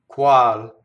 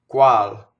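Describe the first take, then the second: Both takes have the same delivery.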